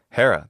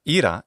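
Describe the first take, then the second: First: It uses the classical Attic Greek pronunciation. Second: It uses the modern Greek pronunciation. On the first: "that's how her name is pronounced in classical Attic pronunciation" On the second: "in modern Greek pronunciation"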